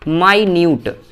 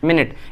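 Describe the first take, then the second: First: It is said as 'my-nyoot', long second vowel. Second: It is said as 'min-it', short first vowel. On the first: Very small in amount. "इसको मिनट नहीं बोलते, इसको बोलते हैं माइन्यूट" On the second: A unit of time. "उसको मिनट ही पढ़ते हैं"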